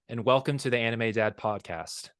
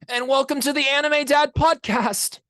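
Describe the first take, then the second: First: It is said in his normal voice. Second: It is said as a Tanjiro Kamado impression.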